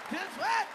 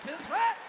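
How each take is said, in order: Both takes have the same delivery.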